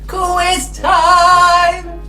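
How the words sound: It is shouted in a high pitch. "they can shout it high"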